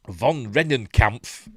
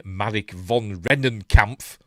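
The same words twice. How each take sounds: First: Von Rennenkampf drawn out slowly and loudly; savoured name. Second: Marek von Rennenkampf, slow and loud, every syllable relished; savoured name. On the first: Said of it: "I'm gonna change my name to that". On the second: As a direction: roll out von Rennenkampf slowly and loudly. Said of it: "What an amazing name". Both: Shown as a demonstration.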